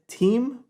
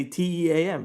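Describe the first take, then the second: First: Said in the usual way. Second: T E A M said letter by letter; spelled out as letters. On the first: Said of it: "but you actually wanna say T E A M". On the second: Shown as a demonstration. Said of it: "you might have said team".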